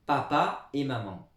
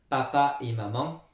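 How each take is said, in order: Both takes have the same delivery.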